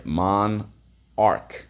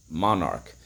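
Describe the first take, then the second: First: "Monarch" split into mon, pause, ark; "Monarch" in separate syllables for spelling. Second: Said in the usual way. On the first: Shown as a demonstration. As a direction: sound out "Monarch" slowly in two beats. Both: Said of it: "So let's go".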